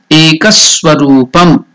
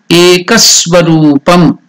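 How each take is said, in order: Both takes have the same delivery.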